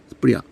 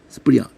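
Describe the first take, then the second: First: A faint s sound comes before the p. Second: A faint s sound comes before the p.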